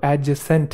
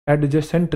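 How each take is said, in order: First: "एडजेसेंट" said a-je-sent; silent D. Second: "एडजेसेंट" wrongly said ad-juh-sent; D pronounced. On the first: Teacher correcting students, "एडजेसेंट" with silent D. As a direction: drop the D before J in "एडजेसेंट". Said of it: "जो डी है वो silent है". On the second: Teacher rejecting the mistake, "एडजेसेंट" with audible D. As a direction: voice the silent D in "एडजेसेंट". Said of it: "नहीं है वो". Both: Shown as a demonstration.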